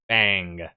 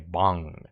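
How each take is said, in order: First: The vowel sounds like the one in 'cat'. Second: The vowel sounds like the one in 'long'. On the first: This is how Americans say it. "That's Americans or other people. We say ang" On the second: This is how Koreans say it. "They say bong"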